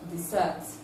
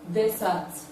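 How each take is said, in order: First: The stress is on the second syllable. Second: The stress is on the first syllable. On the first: It is used as a verb. "the one that has the stress on the second syllable is the verb" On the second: It is used as a noun. "noun desert"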